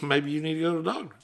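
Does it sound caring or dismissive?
dismissive. It sounds cold and brushing off.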